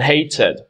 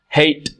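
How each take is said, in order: First: The ending is an extra syllable, id. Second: The ending is a bare t sound, no syllable. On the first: The speaker calls it right. "So it's wanted and hated" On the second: The speaker calls it wrong. "that doesn't sound right"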